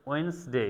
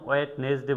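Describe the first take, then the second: First: ওয়েডনেসডে said "ওয়েনসডে", the d silent; silent d Wednesday. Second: ওয়েডনেসডে with every letter sounded, d included; the wrong way: ওয়েডনেসডে letter by letter; wrong spelled-out Wednesday. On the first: (ওয়েডনেসডে উচ্চারণ "ওয়েনসডে", ডি নীরব) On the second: (ভুল উচ্চারণ: ওয়েডনেসডে সব অক্ষর বলে) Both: Shown as a demonstration. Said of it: "কখনো ওয়েডনেসডে বলি না".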